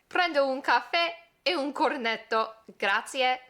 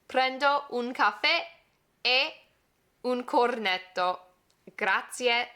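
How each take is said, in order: First: The phrase is spoken at normal conversational speed. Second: The phrase is spoken slowly and deliberately.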